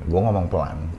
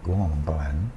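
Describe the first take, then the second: First: Soft voice with strong resonance vibrating in the face. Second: Soft voice without resonance, sounding weak and unclear.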